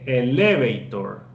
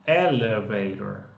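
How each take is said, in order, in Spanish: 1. La fuerza no está en la primera sílaba. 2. La fuerza está en la primera sílaba. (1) "Yo no digo" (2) "Esa es la fuerza, está en esa primera sílaba"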